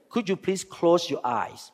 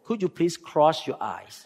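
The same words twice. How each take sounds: First: Said in the usual way. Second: "close" comes out as "cross", with an r for the l; softly imitating his own Thai accent, "close" heard as "cross"; Thai-accented English. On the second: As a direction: say "cross your eyes" the way a Thai speaker says "close". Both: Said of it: "But I spoke with Thai accent".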